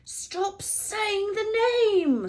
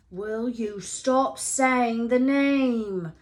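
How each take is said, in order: First: Slow pleading hiss; slow, drawn-out frightened plea; terrified whisper. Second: Slow, drawn-out hiss; slow frightened hissing demand. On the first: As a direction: beg him to stop, scared. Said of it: "said Ron in a terrified whisper". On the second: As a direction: snap at him to stop, scared. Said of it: "Ron hissed". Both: A narrator's reading.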